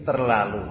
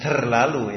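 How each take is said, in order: First: "terlalu" with a clean Indonesian t; unaspirated t in "terlalu", spoken low; T without hiss. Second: "terlalu" with an airy hiss after the t; Arabic-style breathy t opening "terlalu". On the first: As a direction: say "terlalu" with no puff of air after the t. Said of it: "tidak ada desisan". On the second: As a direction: wrongly aspirate the t in "terlalu". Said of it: "hamas, tidak ada desisan". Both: Shown as a demonstration.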